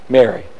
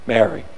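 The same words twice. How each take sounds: First: Tender. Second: Low, soft, tender call of her name; tender Mary. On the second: Jesus calling Mary by name, low and tender. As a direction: say her name like nobody else could. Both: Acted. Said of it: "Like nobody else could say her name".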